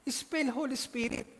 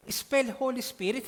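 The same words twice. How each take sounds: First: Repeating the order, amused and slow; preacher laughing at the visa story, higher and slow; laughing retelling. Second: Slow, loud and higher official command; consul's demand. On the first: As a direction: chuckle through the consul's demand. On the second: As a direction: bark the order like a stern consul. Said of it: "sabi sa kanya". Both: Retold or imitated.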